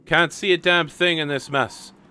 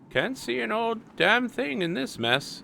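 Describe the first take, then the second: First: It is read in his ordinary voice. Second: It is read in a put-on old man voice.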